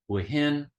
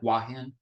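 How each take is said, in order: First: The name is said slowly in three syllables. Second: The name is said quickly in two syllables. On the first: "three syllables" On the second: "Thais can pronounce it very fast"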